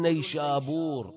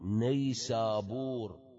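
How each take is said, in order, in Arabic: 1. الحرف الثاني هو صوت sh. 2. الحرف الثاني هو صوت s. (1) "ما يقولون نيشابور" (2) "العرب شو يقولون؟"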